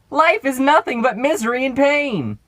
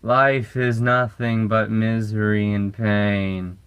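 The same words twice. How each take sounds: First: It is said in a loud, direct manner. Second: It is said in a creepy, slouched manner. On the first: "nothing ruins creepy like this" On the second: "you're playing a creepy character like this"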